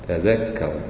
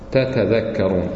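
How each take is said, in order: First: One t sound, and the dh is doubled. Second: Two t sounds, and the dh is single. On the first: "دخلت في الذال فتقرأ مشددة" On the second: "لو فك الإدغام كيف تقرأ؟ تتذكرون الذال إيش؟ يعني غير مشددة"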